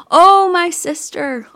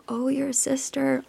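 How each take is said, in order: First: Loud, high grieving wail; crying out in grief. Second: Higher, much softer mirrored reply; gentle echo. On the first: Grieving goddess cries out for her husband, wailing. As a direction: let the grief burst out on Oh. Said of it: "she's crying out". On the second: Creatures echo her grief for the child, softly. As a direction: hand her grief back quietly. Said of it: "echoed back to her". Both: Retold or imitated.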